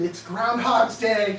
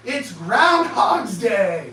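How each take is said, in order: First: Said in the usual way. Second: Slow, loud drawn-out shout. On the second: Real, not acted. To the audience, exasperated, a slow loud shout. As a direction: bellow it out in exasperation. Repeats the line as an outcry.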